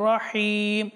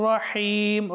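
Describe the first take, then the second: Both takes have the same delivery.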